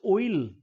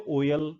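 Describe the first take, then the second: First: Oil as one gliding "o-il"; correct pronunciation of oil. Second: ऑयल in two beats, "o-yal"; Indian pronunciation of oil. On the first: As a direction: glide oil from o to i, no y-schwa. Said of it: "this is oil". (oil को ओइल जैसा, ओ से इ तक) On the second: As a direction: put a y and a schwa in ऑयल. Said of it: "हम इसको बोलते हैं". (ऑयल को ओ-यल जैसा, दो हिस्सों में) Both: Shown as a demonstration.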